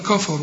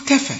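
First: كفر with dark, rounded "kaw-faw" vowels; wrong heavy vowels. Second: كفى with thin, front "keh-feh" vowels; light vowels. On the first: Teacher quoting a common mistake, heavy vowels in كفر. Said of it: "وده خطأ". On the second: Teacher showing the correct reading, light vowels in كفى. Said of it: "شوف كفى". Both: Shown as a demonstration.

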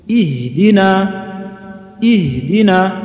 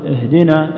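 First: اهدنا high and drawn out, with a clear "i" and distinct "h"; pure kasra. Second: اهدنا opened on a loose "eh"; slack kasra. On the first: Quran teacher carefully modelling اهدنا, pure kasra. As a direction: start اهدنا on a clean "ih", each sound separated. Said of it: "تخلص كسرتها وتبينها". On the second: Quran teacher showing the common mistake in اهدنا, kasra like imala. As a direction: let the first vowel of اهدنا slide from "i" toward "e". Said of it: "زي الإمالة". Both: Shown as a demonstration.

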